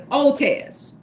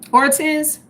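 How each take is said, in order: First: The name is said with no R sound. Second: The name is said with an R sound. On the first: "The R is like silent" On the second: "am I pronouncing the last name right?"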